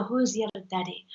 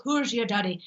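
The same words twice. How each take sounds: First: Demonstrated Irish lilt; Irish accent. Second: Demonstrated Scottish lilt; Scottish accent. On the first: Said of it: "then the Irish go". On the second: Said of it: "so the Scottish goes". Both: Shown as a demonstration.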